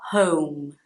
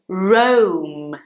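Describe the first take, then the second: First: The word begins with an H sound. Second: The word begins with an English R sound. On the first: The speaker calls it wrong. "not like this is the H sound" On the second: The speaker calls it right. "the R at the beginning of the word in English sounds like er"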